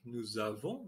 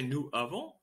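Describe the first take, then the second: First: A z sound links nous to avons. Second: No z sound links nous to avons. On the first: The speaker calls it right. "you see the liaison when we speak" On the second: The speaker calls it wrong. "we don't say nous avons"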